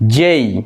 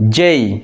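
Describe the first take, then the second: Both takes have the same delivery.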